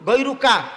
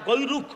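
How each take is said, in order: First: The word ends with a full ka syllable. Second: The word ends on a bare k sound. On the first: "এখানে কিন্তু কা আছে" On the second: "আর যদি শেষে আপনি না পড়েন, কা যদি না মিলান, তাতে কোনো সমস্যা নাই।"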